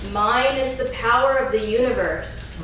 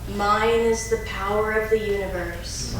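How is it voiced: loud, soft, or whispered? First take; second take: loud; soft. First: It is said in a strong, loud voice. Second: It is said in a softer voice. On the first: "first in a strong voice" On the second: "Taking it a little softer"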